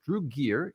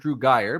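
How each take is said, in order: First: The surname is said as "Gear". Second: The surname is said as "Geyer". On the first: The speaker calls it right. "is his actual name" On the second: The speaker calls it wrong. "I've been calling him"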